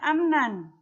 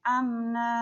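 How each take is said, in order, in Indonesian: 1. Kata ini berakhir dengan vokal pendek dan n. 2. Kata ini berakhir dengan vokal yang dipanjangkan, tanpa n. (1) "Tidak dibaca amnan" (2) "tapi dibaca amna"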